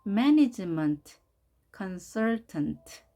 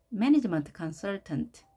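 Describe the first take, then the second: First: Management and consultant spelled out very slowly, stress on MAN; syllable by syllable. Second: Slow whole phrase management consultant, MAN stressed, falling end; model word again. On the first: Teacher drilling pupils: very slow syllable-by-syllable stress demo. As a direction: break it into slow stressed parts. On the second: Teacher to pupils: slow full model read. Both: Shown as a demonstration. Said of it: "강세를 별도로 또 표기해 봤습니다".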